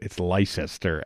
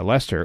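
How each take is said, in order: First: It is said with an outsider's mispronunciation. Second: It is said the way British locals say it. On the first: The speaker calls it wrong. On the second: The speaker calls it right.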